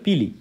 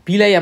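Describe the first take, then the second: First: The word ends with an 'ee' sound. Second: The word ends with an 'eye' sound. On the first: The speaker calls it right. "এটার আসলে উচ্চারণ হবে পিলি" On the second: The speaker calls it wrong. "এভাবে এভাবে পিলাই আমরা বলতেছি"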